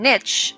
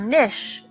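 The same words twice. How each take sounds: First: It is said with an American pronunciation. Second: It is said with a British pronunciation. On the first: "as pronounced in the United States" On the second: "as pronounced in the U K"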